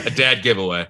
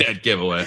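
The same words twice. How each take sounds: First: "dad" said with the open a of dad; "dad" sounds the pun, not dead. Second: "Dead" said with a clear short e; "Dead" as the usual word dead; plain dead. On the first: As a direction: swap "dad" in, like cat. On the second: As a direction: say "Dead giveaway" as dead. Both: Shown as a demonstration.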